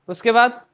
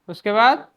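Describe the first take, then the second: No difference in how they are said.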